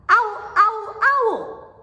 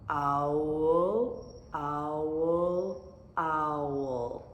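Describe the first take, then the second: First: It is said fast. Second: It is said slowly.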